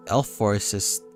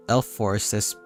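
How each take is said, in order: Both takes have the same delivery.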